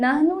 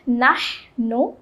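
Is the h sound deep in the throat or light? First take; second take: light; deep throat. First: The h sound is light and breathy. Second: The h sound is made deep in the throat. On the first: The speaker calls it wrong. "इसको हम नहनु नहीं पढ़ेंगे" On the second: The speaker calls it right. "बल्कि हम पढ़ेंगे नहनु"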